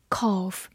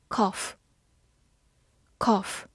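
First: "cough" with a long, held "aw"; long-vowel pronunciation of "cough". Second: "Cough" with a short o; short-vowel pronunciation of "Cough". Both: Shown as a demonstration. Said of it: "或者读长音".

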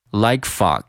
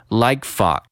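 First: "like fog" at a quicker, natural pace; linked like fog. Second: "like fog" with the k unreleased, flowing into fog; linked like fog. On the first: Teacher repeating the linked phrase at natural speed. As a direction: say "like fog" again, faster and joined. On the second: Teacher building the phrase slowly, "like fog" linked. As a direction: hold the k of "like fog" and move straight on. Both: Shown as a demonstration. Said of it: "先是like和fog".

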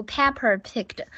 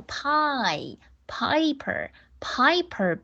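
First: Pepper picked with an E sound instead of the I in Piper; wrong pronunciation. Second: Pie and Piper slow with a clear I diphthong; correct pronunciation. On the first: Teacher imitating pupils who say pepper for Piper. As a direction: show the pupils' mistake. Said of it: "还有同学读pepper picked". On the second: Teacher correcting pupils with slow clear Piper. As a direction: stretch pie, then Piper. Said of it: "不是pie，pie，I". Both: Shown as a demonstration.

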